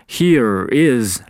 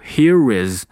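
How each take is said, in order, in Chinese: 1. 这两个词分开说。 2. 这两个词连在一起说。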